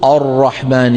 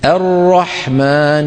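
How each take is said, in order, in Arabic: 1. تبدو الهمزة الافتتاحية ثقيلة وغامضة. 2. تبدو الهمزة الافتتاحية خفيفة ورقيقة. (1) "ما بيصير ما بيصير نقول الرحمن" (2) "الهمزة مرققة، الراء مفخمة"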